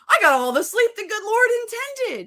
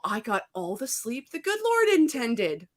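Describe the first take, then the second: First: It is said with strong, powerful energy. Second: It is said with ordinary, modest energy.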